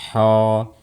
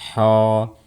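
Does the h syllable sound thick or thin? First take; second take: thick; thick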